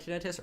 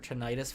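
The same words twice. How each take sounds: First: It is said the non-American way. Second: It is said the American way.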